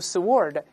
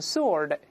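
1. s 之后发 w 音。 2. s 之后不发 w 音。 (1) "注意剑不要读sword" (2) "w 是不发音的，读成sword"

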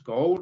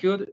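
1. Se pronuncia un sonido vocálico 'o' en la palabra. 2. No se pronuncia ningún sonido vocálico 'o' en la palabra. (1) "no se pronuncia la O, no decimos could" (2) "Simplemente could"

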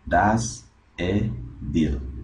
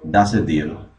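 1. La s se mantiene separada de la siguiente palabra. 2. La s se une directamente con la siguiente palabra. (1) "Una persona que no domina bien diría" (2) "Noten cómo se une acá la S con el artículo indefinido"

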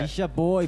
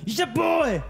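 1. 평상시 일상적인 에너지로 말하는 거예요. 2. 강하게 끊어 치는 힙합 스타일로 말하는 거예요. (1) "평상시 보통 텐션" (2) "힙합적인 노래 할 때"

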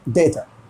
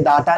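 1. पहला स्वर 'ay' जैसा बोला जाता है। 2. पहला स्वर 'ah' जैसा बोला जाता है। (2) "डाटा नहीं बोलेंगे"

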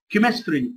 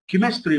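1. الكلمة تبدأ بصوت k. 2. الكلمة تبدأ بصوت k.

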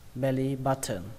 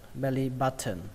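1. Âm t trong button được phát âm rõ ràng. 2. Âm t trong button được phát âm rõ ràng.

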